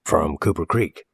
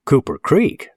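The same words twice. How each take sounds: First: Said in the usual way. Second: High, rising questioning repeat; incredulous echo. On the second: Acted. Local boy doubting the stranger's home town, incredulous. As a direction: throw the place name back in doubt, pitched up. Bill echoes it, frowning, in doubt.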